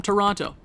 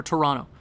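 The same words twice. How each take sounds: First: Toronto with both T's sounded; second T pronounced. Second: Toronto said as "Toronno"; second T dropped. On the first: Real, not acted. Gamer naming the team, sounding the second T in Toronto. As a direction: say Toronto with a clear T before the final o. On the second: Shown as a demonstration. Canadian correcting himself, Toronto without its second T. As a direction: drop the second T in Toronto, leaving just the n. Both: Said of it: "I pronounced the second T".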